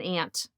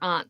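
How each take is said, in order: First: Aunt is said the New York way. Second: Aunts is said the Boston way.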